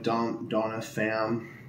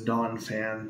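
First: An extra vowel sound is added inside the name. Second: No extra vowel sound is added inside the name. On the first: The speaker calls it wrong. "I always want to put an I in there" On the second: The speaker calls it right. "but it's Dawn Fan"

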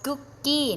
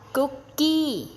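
First: It is said with English pronunciation. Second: It is said with Thai loanword pronunciation. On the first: The speaker calls it right. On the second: The speaker calls it wrong. "ไม่ออกเสียงว่า"

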